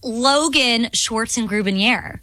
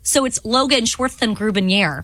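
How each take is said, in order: First: It is said in a plain voice. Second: It is said with a lisp.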